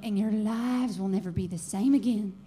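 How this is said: It is said in a Southern accent.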